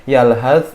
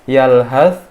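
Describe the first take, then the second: No difference in how they are said.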